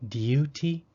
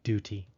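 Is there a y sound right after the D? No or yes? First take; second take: yes; no. First: A y sound follows the D. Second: No y sound follows the D. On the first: "Some British speakers might try to make a U sound after a D" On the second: "so I just say duty"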